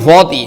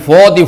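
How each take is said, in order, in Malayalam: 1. 'fa' ഭാരമുള്ളതാണ്, വൃത്താകൃതിയിലുള്ള 'o' സ്വരത്തോടുകൂടി. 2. 'fa' ഭാരമുള്ളതാണ്, വൃത്താകൃതിയിലുള്ള 'o' സ്വരത്തോടുകൂടി.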